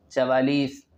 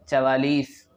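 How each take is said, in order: Both takes have the same delivery.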